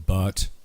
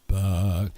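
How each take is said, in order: First: The final T is clearly pronounced. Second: The final T is left off. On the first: "She didn't go but" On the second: "the word but didn't even have a T at the end"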